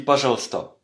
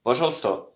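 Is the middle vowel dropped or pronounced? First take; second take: dropped; dropped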